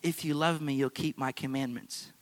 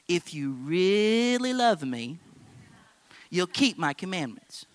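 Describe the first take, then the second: First: It is said in a plain, neutral tone. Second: It is said in a suspicious, demanding tone.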